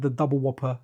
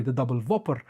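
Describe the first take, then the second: First: Said in the usual way. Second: "Whopper" in "the double Whopper" said as "Vopper", V for W. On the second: Shown as a demonstration. Father correcting himself to the shop's V name, "Whopper" with a V. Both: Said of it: "Oh, sorry, the double Whopper".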